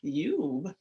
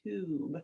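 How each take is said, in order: First: The vowel is said with a 'you' sound. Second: The vowel is said with an 'ooh' sound. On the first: The speaker calls it wrong. "we wouldn't say I have a tube of toothpaste" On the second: The speaker calls it right. "It must be a tube of toothpaste"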